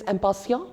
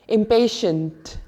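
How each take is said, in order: First: The word is pronounced with French sounds. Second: The word is pronounced with English sounds. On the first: The speaker calls it right. "in French, the pronunciation is a bit different" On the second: The speaker calls it wrong. "what many people will read it as"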